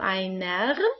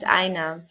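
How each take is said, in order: First: Each sound is said in an exaggerated, overly careful way. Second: It is said quickly and naturally, as in speech. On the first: "I'm just uh, exaggerating the pronunciation" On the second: "if we speak in, an, in a normal way"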